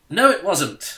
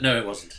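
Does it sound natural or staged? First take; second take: staged; natural. First: It is said in a staged, unnatural way. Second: It is said in a natural, casual way.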